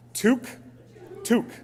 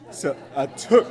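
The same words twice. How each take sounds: First: Practising toque like a new word; toque practised. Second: Toque said as tuke, rising; toque pronunciation. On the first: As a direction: drill toque, tuke, twice. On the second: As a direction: try out toque as tuke with a rise. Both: Shown as a demonstration. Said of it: "we call it a toque".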